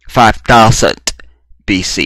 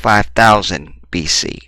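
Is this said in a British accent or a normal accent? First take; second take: British; normal. First: It is said in a put-on British accent. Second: It is said in the speaker's normal accent.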